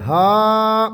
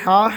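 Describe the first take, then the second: First: ہا with the heavy throaty ح, drawn out slowly. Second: ہا with the light breathy ہ, slow. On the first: Teacher slowly showing students the heavy ha sound. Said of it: "یہ ہے ہا". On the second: Teacher contrasting it with the light ha for students. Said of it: "یہ ہا ہلکی ہے". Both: Shown as a demonstration.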